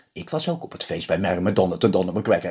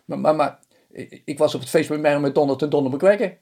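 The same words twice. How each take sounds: First: Said in the usual way. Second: Higher, stuttering excuse; stammering husband. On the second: Acted. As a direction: fumble for an excuse in a high voice.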